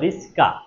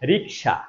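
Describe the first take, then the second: First: The s sound comes before the k sound. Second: The k sound comes before the s sound. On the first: "আর একজন বললো রিস্কা" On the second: "আমি যদি বলি রিক্সা"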